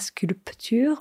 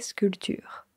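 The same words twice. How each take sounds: First: The P sound is clearly pronounced. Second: The P sound is left silent. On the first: The speaker calls it wrong. "Pas sculpture" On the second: The speaker calls it right. "on ne prononce pas ce P. On dit sculpture"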